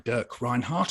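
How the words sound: The name is said with English pronunciation. "as we'd say in English"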